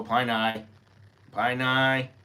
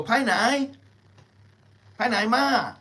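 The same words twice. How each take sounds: First: Pai nai said flat and even, syllable by syllable; flat textbook Thai. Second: "Pai nai, pai nai ma" lilting high with a rise on pai; sing-song native "pai nai ma", much higher; natural Thai. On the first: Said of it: "They don't go". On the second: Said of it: "They go". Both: Shown as a demonstration.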